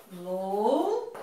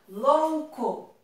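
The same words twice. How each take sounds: First: Louco split with LOU drawn out and rising, then a pause; separado em sílabas. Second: Said in the usual way. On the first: Shown as a demonstration. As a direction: stretch the first syllable of Louco and hold before co. (Louco silabado, com "lou" alongado) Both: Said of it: "Vamos separar?".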